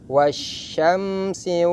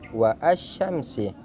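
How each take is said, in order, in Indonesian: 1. 'Wa' langsung menyambung ke 'syamsi' tanpa vokal tambahan. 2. Bunyi vokal 'a' terpisah mengikuti 'wa'. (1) "Cara membacanya wasyamsi" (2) "tidak boleh dibaca wa asyamsi"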